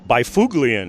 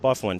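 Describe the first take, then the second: First: The name is sounded out letter by letter. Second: The name departs from its written letters. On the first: The speaker calls it wrong. "if you pronounce it the way it's spelled" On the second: The speaker calls it right. "he likes to have it pronounced"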